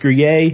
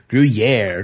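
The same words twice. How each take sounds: First: The last syllable does not rhyme with air. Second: The last syllable rhymes with air. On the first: The speaker calls it wrong. "which I pronounce Gruyere" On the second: The speaker calls it right. "is actually Gruyere. Gruyere rhymes with air"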